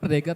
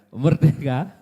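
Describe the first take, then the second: First: It is said as a forceful exclamation. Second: It is said with a questioning, unusual tune. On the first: It is a proud declaration of freedom. "bukan merdeka tanda pentung" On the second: It doubts whether there is really freedom. "Intonasinya nggak biasa kan"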